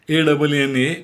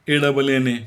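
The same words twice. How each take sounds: The two takes are said the same way.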